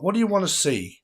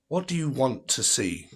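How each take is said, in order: First: Lifted high and singsong to the chat; playful high call to viewers; high teasing call; sing-song call. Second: Said in the usual way. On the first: Acted.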